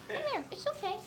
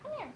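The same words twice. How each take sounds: First: High soft coaxing call; cooing to cat. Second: Said in the usual way. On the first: Real, not acted. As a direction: coax the cat softly, way up high.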